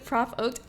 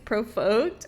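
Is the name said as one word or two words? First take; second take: two words; one word. First: It is split into prof and oaked. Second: It is run together like the word provoked. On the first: The speaker calls it right. "as opposed to prof oaked" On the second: The speaker calls it wrong. "Most people think it's provoked"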